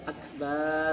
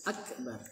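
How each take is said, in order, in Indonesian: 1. Bunyi b dipanjangkan. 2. Bunyi b dibaca pendek. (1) "tidak boleh memanjangkan huruf ba" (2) "harus akbar dengan hamzah"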